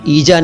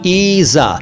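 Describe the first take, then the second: First: The middle consonant is a j sound. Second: The middle consonant is a z sound. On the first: The speaker calls it wrong. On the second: The speaker calls it right.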